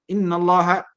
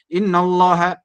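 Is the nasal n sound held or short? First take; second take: short; short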